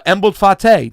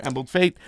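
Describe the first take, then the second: First: Fate said as "fah-tay" in two syllables; Embled Fate, the Fate drawn out as "fah-tay"; first pronunciation. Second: Fate said as the plain English word "fate", rhyming with late; self-correct to Embled Fate with a one-syllable Fate; corrected pronunciation. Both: Shown as a demonstration. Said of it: "or Embled Fate".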